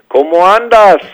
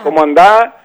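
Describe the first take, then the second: First: The final s is clearly pronounced. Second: The final s is dropped or absorbed. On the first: "Le ponen las S's todas, sí, al final de las palabras" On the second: "la S del final es como que la absorbemos"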